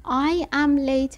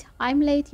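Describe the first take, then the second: First: "I am late" slowly, with I and am as separate words; full form. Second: "I'm late" with I and am run together as I'm; contracted form. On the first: Teacher models the full form for learners, slow and separated. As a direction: stretch out "I am late" word by word. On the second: Teacher gives learners the short form, contracted and unstressed. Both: Shown as a demonstration. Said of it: "I'm late یعنی دیرم شده".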